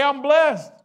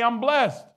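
First: High, loud, emphatic shout; said like you mean it. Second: Loud declaration; call to declare. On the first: Preacher demands the crowd say it like they mean it, loud. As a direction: shout it with conviction. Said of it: "say it like you mean it". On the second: Preacher leads the congregation in a loud declaration. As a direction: proclaim it loudly. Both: Shown as a demonstration.

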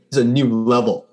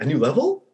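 First: Said in the usual way. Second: "A new level?" with the pitch rising on "level"; questioning echo. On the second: Acted. Pip answering his friends, "A new level?" as a rising question.

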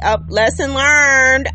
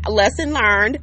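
First: Louder, slow "lesson learned"; emphatic. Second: Said in the usual way. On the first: Real, not acted. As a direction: drive "learned" home.

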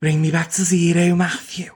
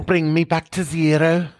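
First: Put-on Scouse accent. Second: Put-on 1 Scouse accent. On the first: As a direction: throw the line back in thick Scouse. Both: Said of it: "do Scouse with me".

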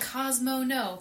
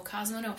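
First: A sharp mock yell at the dog; mock neighbor scolding. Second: Tired neighbor scolding the dog; weary scolding. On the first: Neighbor scolding his dog Cosmo, mock sharp yell. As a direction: snap at the dog like the annoyed neighbor. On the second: Retold or imitated. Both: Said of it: "Cosmo is their name".

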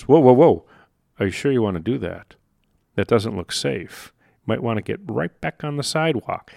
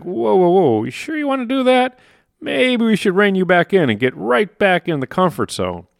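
First: Lightly voiced brain pulling you back, softening; cautious inner voice. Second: Higher, anxious mock alarm; alarmed inner voice. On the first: Brain's autopilot warning a walker off the curb, hushed caution. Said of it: "your psychocybernetic mechanism goes". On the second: Inner mechanism reining in a would-be entrepreneur, high mock alarm. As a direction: voice the brain panicking as you stretch out. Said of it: "and it's like".

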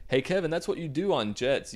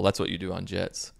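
First: Higher-pitched mock remark; self-mocking. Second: Said in the usual way. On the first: Host jeering at own remark about jets, self-mocking. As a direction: poke fun at your own obvious line.

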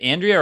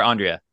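First: Andrea said as AN-dree-uh; first pronunciation. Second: Andrea said as AHN-dree-uh; alternative pronunciation. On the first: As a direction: open with a flat "a" as in "and" in Andrea. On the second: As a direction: open with a broad "ah" in Andrea. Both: Shown as a demonstration. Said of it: "is it Andrea or Andrea?".

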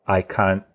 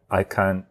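Both takes have the same delivery.

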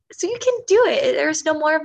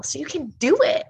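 First: Much higher, louder, all-out cheer; rally the listener at full force; "so you can do it" cried out with DO punched; near shout. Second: First rising push of "so you can do it"; emphatic. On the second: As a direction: drive the point home. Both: Real, not acted. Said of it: "building emphasis".

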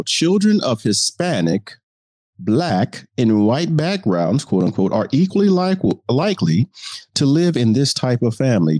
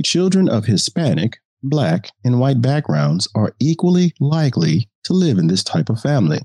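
First: Reporter voice. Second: Said in the usual way. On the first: Shown as a demonstration. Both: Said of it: "the reporter voice allows me".

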